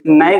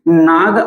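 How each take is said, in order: First: The vowel is a short 'a' as in cat. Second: The vowel is a long open 'ah' sound. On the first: The speaker calls it right. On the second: The speaker calls it wrong.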